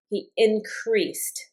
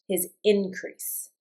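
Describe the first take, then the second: First: "increased" stressed on the end, in-CREASED, said very slowly; verb stress on second syllable. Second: "increase" stressed on the first syllable, IN-crease, said slowly. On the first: Teacher showing students the verb "increased" with stress on CREASED. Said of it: "So it does kind of follow the rule". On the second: Teacher showing students the noun "increase" with stress on IN. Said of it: "um, accent on the in". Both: Shown as a demonstration.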